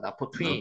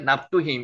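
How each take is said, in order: First: The name is said as na-pho-tu-im. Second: The name is said as nap-du-him. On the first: This form follows the original-language text directly. "원문을 가지고 바로 번역을 했다면 나포트임이라고" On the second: This form came through an English or Chinese-character translation. "이렇게 납두힘, 이렇게 읽히는 겁니다"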